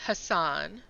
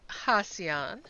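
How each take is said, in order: First: Hassan as huh-SAHN, two syllables; Sifu's pronunciation. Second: Hassan as HAH-see-ahn, three syllables; Tim's pronunciation. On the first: Quoting how Sifu says the name, Hassan as huh-SAHN. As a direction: say Hassan with the weight on a long "SAHN". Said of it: "but then Sifu pronounces it". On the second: Quoting how Tim says the name, Hassan as HAH-see-ahn. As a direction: say Hassan with an added "see" in the middle. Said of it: "Tim always pronounces it". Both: Retold or imitated.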